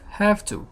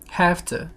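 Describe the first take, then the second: First: Both words are said separately and in full. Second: The words are run together into one reduced word.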